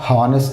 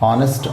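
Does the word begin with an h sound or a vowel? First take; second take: h sound; vowel. First: The word begins with an h sound. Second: The word begins directly with a vowel. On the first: The speaker calls it wrong. "అంతేగాని హానెస్ట్ అని అన్నాం అండి" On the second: The speaker calls it right. "ఓ దగ్గర నుంచే మనం pronunciation start చేస్తాం"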